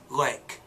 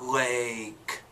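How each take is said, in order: First: The vowel is kept short. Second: The vowel is drawn out long. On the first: The speaker calls it right. "it's lake" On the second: The speaker calls it wrong. "Notice it's not lake"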